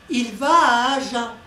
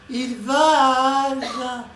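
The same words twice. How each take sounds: First: The sentence is spoken at a quicker pace. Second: The sentence is spoken at a slower pace.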